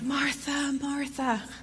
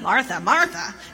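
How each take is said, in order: First: It is said in a tender, caring tone. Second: It is said in a harsh, scolding tone.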